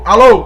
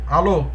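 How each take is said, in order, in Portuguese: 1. A palavra é dita alto e forte. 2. A palavra é dita baixo e fraco. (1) "ficar um som alto" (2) "Estou fazendo um som fraco"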